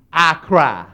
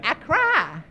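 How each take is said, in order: First: Said in the usual way. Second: Put-on higher, softer little kid's voice; whiny kid. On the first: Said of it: "some of you do". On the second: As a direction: say it like a small child owning up. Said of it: "Some of you said".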